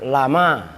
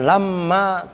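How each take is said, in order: First: The m sound is short and single. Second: The m sound is held long and doubled. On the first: The speaker calls it right. "tapi takhfif lama" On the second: The speaker calls it wrong. "bukan lamma tasdid"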